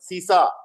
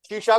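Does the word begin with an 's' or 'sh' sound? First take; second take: s; sh. First: The word uses 's' sounds. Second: The word uses 'sh' sounds. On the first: The speaker calls it wrong. "शय में दिक्कत है हमारे यहाँ" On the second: The speaker calls it right. "श है"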